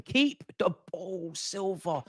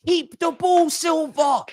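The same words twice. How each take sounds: First: Slow, soft, drawn-out groaning plea; exasperated plea. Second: High-pitched yell at a player; exasperated shout. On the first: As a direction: plead slowly, dropping away on the name. Pleading with player to keep ball. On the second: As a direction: shout it high, at your wits' end. Yelling at player to keep ball. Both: Real, not acted.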